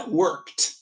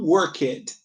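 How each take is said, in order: First: Worked drawn out as one syllable, "workt"; correct ED ending. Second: Worked in two syllables, "work-ed"; mistaken ED ending. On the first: Teacher shows students the right worked, careful kt ending. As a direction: end worked on kt, no extra vowel. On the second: Teacher shows learners' error in worked, over-pronounced ED. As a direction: sound out a full ED at the end of worked. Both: Shown as a demonstration. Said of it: "não worked".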